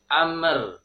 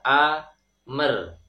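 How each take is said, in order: First: The m is bounced before the r. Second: An extra vowel sounds between the m and r. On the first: "memantulkan huruf mim. Ini tidak tepat" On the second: "seperti me dalam bahasa Indonesia. Ini juga tidak tepat"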